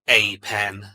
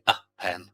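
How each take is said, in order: First: The article is said with a full 'ay' vowel. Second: The article is said with a weak 'uh' vowel. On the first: The speaker calls it wrong. "We don't say a pen" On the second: The speaker calls it right. "We say a pen"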